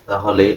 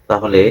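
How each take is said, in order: The two takes are said the same way.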